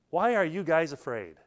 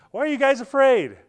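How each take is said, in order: First: Said in the usual way. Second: High, loud disbelieving question; can't believe they're scared; incredulous. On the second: Acted. Jesus asking the terrified disciples in the boat, loud incredulous. Jesus asks amid storm.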